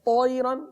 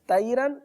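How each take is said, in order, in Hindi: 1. पहला व्यंजन भारी और भरा हुआ है। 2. पहला व्यंजन पतला और हल्का है। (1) "पुर" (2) "बारीक"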